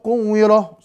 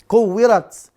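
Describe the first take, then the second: First: The word ends with a soft h sound. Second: The word ends with a clear t sound. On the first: The speaker calls it wrong. "Salah itu kan?" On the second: The speaker calls it right. "tetap dibaca"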